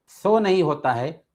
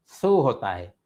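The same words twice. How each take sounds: First: सो said with o as a mistake; wrong o vowel. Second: सू with a long ऊ; correct long u. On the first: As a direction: show the wrong सो. (गलत ओ) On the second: (सही ऊ) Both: Shown as a demonstration.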